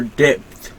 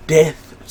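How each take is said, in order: First: "depth" said carefully, with a clear d at the start; "depth" said slowly and clearly, self-correcting; corrected depth. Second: "depth" said as "eth", the first d dropped and th breathy; "depth" with the d and p swallowed, sounding like "eth"; mispronounced depth. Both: Real, not acted.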